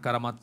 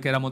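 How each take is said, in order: First: It starts with an a sound, Arabic style. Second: It starts with an e sound, Bengali style. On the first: This is the original-language form. "কারামাত বলা হয়" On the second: This is the local everyday form. "বাংলায় কেরামত বলি আমরা"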